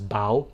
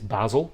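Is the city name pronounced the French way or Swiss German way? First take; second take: French; Swiss German. First: The name is said with a French pronunciation. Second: The name is said with a Swiss German pronunciation. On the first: "There is also the French pronunciation, which is Bâle" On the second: "In Swiss German, it is Basel"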